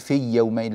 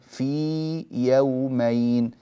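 First: The y sound is clipped short. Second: The y sound is held full length. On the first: The speaker calls it wrong. "لا نقول في يومين" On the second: The speaker calls it right. "فنعطي الياء زمنها"

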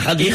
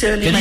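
First: The name begins with a throaty kh sound. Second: The name begins with a plain hard k sound. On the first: "c'est le K-H. Voilà, avec l'accent" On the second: "Caddy, c'est comme dans les supermarchés"

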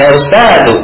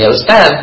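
First: The word ends with a final u vowel. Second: The word ends without a final vowel. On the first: This follows the written dhamma ending. The speaker calls it right. "tapi ya Ustaz" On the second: This follows the casual spoken habit. The speaker calls it wrong. "bukan ya Ustaz"

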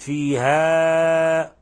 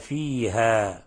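First: The final vowel is stretched too long. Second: The final vowel has its natural length. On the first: The speaker calls it wrong. "فقد بالغت في المد عن المد الطبيعي" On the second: The speaker calls it right. "لاحظوا لما نقف على الألف"

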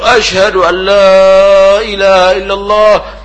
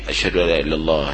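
First: It is said loudly, as if calling out. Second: It is said quietly, as if to oneself. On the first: It is called out to the listeners. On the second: It is recited for oneself, not for the listeners.

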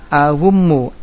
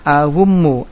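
First: The inner consonant is a w sound. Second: The inner consonant is a w sound.

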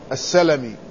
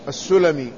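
First: The first syllable has the vowel a: salami. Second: The first syllable has the vowel u: sulami. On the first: It names a clan of the Ansar. "بفتح السين" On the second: It names the tribe of Banu Sulaym. "بضمها"

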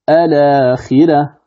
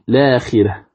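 First: The word starts with an a vowel before l. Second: The word starts directly with an l sound. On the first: "الابتداء بهمزة الوصل" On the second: "الابتداء بلام التعريف بعد نقل حركة الهمزة إليها"

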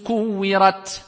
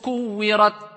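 First: The final t has an audible release of air. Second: The final t has no audible release of air. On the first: The final letter is clearly pronounced. The speaker calls it right. "quand tu vas dire idha shamsu kuwirat" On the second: The final letter seems not to be pronounced at all. The speaker calls it wrong. "tu vas pas dire idha shamsu kuwirat ... on va croire que tu n'as même pas cité de lettre"

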